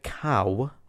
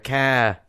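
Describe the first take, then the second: First: The word is said with a standard accent. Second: The word is said with a Midlands accent.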